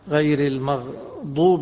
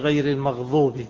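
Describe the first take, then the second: First: The word has the usual ḍād sound. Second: The ḍād is replaced by a ẓā' sound. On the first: "يعني إلا إذا كان يقلب غير المغضوب" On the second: "يخليها غير المغضوب"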